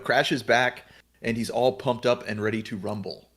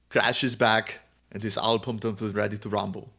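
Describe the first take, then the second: First: It is read in an ordinary, natural voice. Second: It is read in a put-on, action-hero impression voice.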